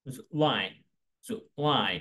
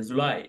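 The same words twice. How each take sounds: First: জুলাই split as "ju-LAI"; careful two-beat model of জুলাই, "ju, LAI"; correct English pronunciation. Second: Said in the usual way. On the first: Shown as a demonstration. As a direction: stress the falling "lai" in জুলাই. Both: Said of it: "এর সঠিক উচ্চারণ হচ্ছে".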